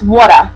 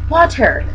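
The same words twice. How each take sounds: First: It is said in an East Coast American accent. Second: It is said in a West Coast American accent. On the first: "That's how East Coast people say it" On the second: "Californians and West Coast people"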